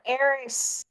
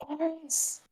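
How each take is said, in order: First: Put-on drawn-out name in Marlo's accent, not whispered. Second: Soft, high, half-whispered call; attempted whisper. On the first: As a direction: say it slowly, keeping the Marlo accent voiced. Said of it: "I can't do the Marlo accent and whisper". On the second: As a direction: call the name softly in a voiced stage whisper. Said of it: "Marlo is going to start whispering now".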